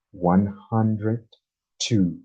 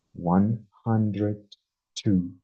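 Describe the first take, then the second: No difference in how they are said.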